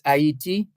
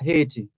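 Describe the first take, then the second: First: The name is given a French pronunciation. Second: The name is given an English pronunciation. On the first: "In in French" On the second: "In English"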